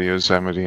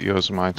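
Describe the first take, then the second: First: The name ends with an 'ee' sound. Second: The name ends like 'mite', rhyming with Marmite. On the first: The speaker calls it right. "until someone said Yosemite" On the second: The speaker calls it wrong. "I used to call it Yosemite for ages"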